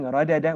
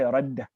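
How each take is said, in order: First: The two d sounds are separated by a vowel. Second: The two d sounds merge into one long d. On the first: The speaker calls it wrong. "Instead of saying radada" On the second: The speaker calls it right. "we say radda"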